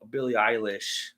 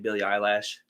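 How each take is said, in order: First: The surname ends with a 'lish' sound. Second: The surname ends with a 'lash' sound. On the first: The speaker calls it right. "it was uh [name]" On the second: The speaker calls it wrong. "but I kept saying Billie Eyelash"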